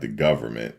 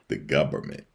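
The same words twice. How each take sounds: First: The word is said with no B sound. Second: The word is said with a B sound. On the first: "Not the government" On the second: "The government with a with a with a B"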